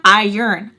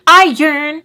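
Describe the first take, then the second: First: "Iron" said loud with a falling tune, "eye-ern"; testing the word. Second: "Iron" much higher and louder, rising like a question, "eye-ern?"; questioning the word. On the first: Unsure if she says it wrong, "Iron" louder, falling. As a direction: say "Iron" firmly, falling at the end. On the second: Doubting her own word, "Iron" higher, louder, rising. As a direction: ask "Iron?" loudly with a rising tune. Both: Shown as a demonstration. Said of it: "I don't know if I'm saying it wrong".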